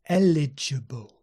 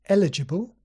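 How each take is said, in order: First: The word is said slowly and deliberately. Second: The word is said at a normal, quicker speed. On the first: "So slowly" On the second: "but at normal speed?"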